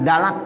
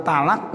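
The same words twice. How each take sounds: First: "dalak" starting with voiced d; dal substitution. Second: "talak" starting with t; t-initial form. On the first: Teacher showing lay speech, "dalak" with dal. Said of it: "Ya, pakai dal". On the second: Teacher naming the word to be altered, "talak" with t. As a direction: say "talak" with a t, not d. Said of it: "dibilang dalak". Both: Shown as a demonstration.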